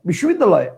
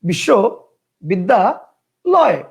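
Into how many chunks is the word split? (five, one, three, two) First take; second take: one; three. First: The word is said in one unbroken chunk. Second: The word is broken into three separate chunks. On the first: "একবারে ... কয়টা হলো? একটা।" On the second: "কয়টা হলো? তিনটা।"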